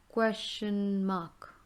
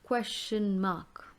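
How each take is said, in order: First: Repeat slowly. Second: Model the term. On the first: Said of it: "teacher repeats term slowly". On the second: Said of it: "teacher models term". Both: Shown as a demonstration.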